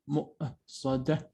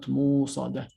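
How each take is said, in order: First: A glottal stop follows the first vowel. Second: A long oo vowel replaces the stop. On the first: The speaker calls it right. "مؤصدة, not موصدة" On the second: The speaker calls it wrong. "not موصدة"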